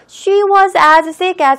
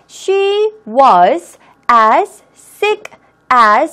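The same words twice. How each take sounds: First: It is faster, and the first s is dropped. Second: Every sound is pronounced, including both s sounds. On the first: "조금 빠른 속도로 읽어볼게요" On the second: "모든 발음을 소리 낸다라는 생각으로 같이 한번 읽어보세요"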